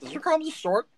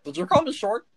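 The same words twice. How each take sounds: First: Higher, louder, outraged repeat; indignant. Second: A first bristling take at the word short; double-take, starting to bristle; offended. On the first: Gnome Stitch confronts the man who called him short, outraged. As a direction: blow up at the insult this time. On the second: Gnome Stitch hears himself called short, bristling. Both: Acted. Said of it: "Hang on a second".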